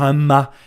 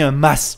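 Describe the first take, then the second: First: The final S sound is silent. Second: The final S sound is pronounced. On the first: The speaker calls it wrong. "Faut arrêter de dire un mât" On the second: The speaker calls it right. "On prononce le S"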